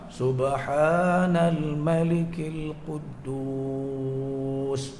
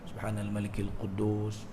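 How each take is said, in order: First: It is said loudly with long drawn sounds. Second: It is said softly.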